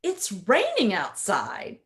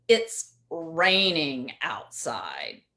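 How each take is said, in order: First: Said in the usual way. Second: "It's raining outside" drawn out slow and lower, with a sarcastic tone. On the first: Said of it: "words are exactly the same". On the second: Shown as a demonstration. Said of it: "two different meanings there".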